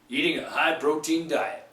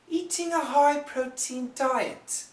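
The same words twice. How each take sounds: First: The T in eating is a soft American flap. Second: The T in eating is a clear British T. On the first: "those damn Americans like to change it quite a bit" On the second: "The British people like to say eating"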